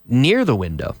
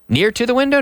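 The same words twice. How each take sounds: First: Said in the usual way. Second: "Near to the window?" asked with a high, doubtful rise; wrong version, questioned. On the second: Shown as a demonstration. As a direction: pose "Near to the window?" as the mistake to reject, rising high at the end.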